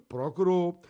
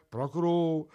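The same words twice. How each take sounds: The two takes are said the same way.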